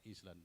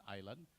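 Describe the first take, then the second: First: Island with the s sounded, is-land; students' mispronunciation. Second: Island as eye-land, no s; correct silent s. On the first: Retold or imitated. Presenter imitates Indonesian students' error, sounded s. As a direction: say Island just as spelled. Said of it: "They pronounce of, of the word Indonesia". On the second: Shown as a demonstration. Presenter corrects the students' error, silent s. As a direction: leave the s out of island. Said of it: "you know, this is island".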